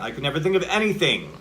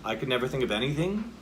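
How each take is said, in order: First: It is exclaimed, with the pitch going down. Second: It is asked as a question with up energy.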